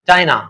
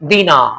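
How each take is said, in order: First: The first vowel sounds like eye. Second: The first vowel sounds like ee. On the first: "English accent जो होगा वो डायना" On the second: "दीना बोलो"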